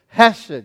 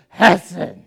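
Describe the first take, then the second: First: It is said plainly, with an ordinary English h. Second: It is said with a guttural, Hebrew-style h.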